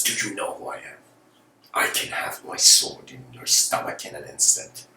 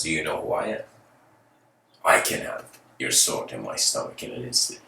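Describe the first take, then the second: First: Hushed threat, dropping into a whisper; furious warlord threat. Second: Low, softly measured reply; hint of an unafraid monk, voice sinking low; fearless monk. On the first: Acted. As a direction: threaten up close, half whispered. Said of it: "furious warlord". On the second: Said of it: "sees the fearlessness".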